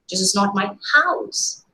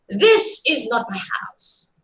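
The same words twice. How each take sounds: First: The stress falls on the word house. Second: The stress falls on the word this. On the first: The building is something other than a house. "Probably some other construction, maybe a go down" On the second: The speaker's house is a different one somewhere else. "if you are stressing the first word here"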